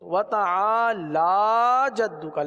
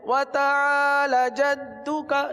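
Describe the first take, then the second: First: The vowel after the 'l' is drawn long. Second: The vowel after the 'l' is cut short. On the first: The speaker calls it right. "लाम खड़ा जबर ला" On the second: The speaker calls it wrong. "पढ़ते हैं व तआला जद्दुका, ये बहुत आम है"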